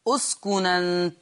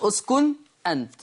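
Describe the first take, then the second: First: The glottal stop is dropped; n links with "a". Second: The n is silent, then a glottal stop follows. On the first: "تحذف الهمزة وناخد حركة الهمزة اللي هي الفتح ونحطها فين؟ نحطها على النون" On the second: "النون ساكنة وما بعدها همز مفتوح"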